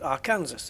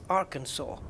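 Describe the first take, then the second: First: The final S is pronounced. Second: The final S is left out. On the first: The speaker calls it wrong. "which isn't Arkansas" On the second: The speaker calls it right. "it's Arkansas"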